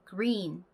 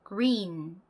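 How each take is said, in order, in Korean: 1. 첫 G는 희미해서 거의 들리지 않아요. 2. 첫 G는 희미해서 거의 들리지 않아요.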